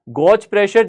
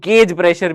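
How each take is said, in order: First: Gauge is said with an 'aw' vowel. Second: Gauge is said with an 'ay' vowel. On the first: This is the speaker's own usual pronunciation. "मैं तो गॉज बोलता हूं" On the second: This is how it is said in many other places. "जिसको गेज pressure भी कई जगह बोला जाता है"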